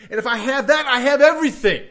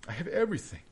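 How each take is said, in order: First: Louder, rising conviction, higher pitch; emphatic declaration. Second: Softer, quiet restatement; soft echo. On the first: Preacher proclaiming to his congregation, loud and emphatic. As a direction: proclaim it with full force. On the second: Preacher repeating it softly to the congregation, quiet and tender. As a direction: let it settle gently. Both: Real, not acted.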